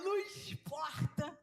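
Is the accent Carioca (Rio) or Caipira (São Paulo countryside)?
Carioca. It is said in a Carioca Rio accent.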